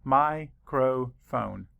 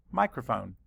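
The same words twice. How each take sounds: First: Microphone said slowly, beat by beat, mi-cro-phone; syllables split. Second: Said in the usual way. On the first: Shown as a demonstration. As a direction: stretch Microphone into slow clear syllables. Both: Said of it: "Count the syllables".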